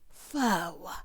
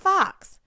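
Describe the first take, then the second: First: The word ends in a plain 'oh' vowel. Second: The word ends with a 'ks' sound. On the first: The speaker calls it right. "It's faux" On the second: The speaker calls it wrong. "Not fox"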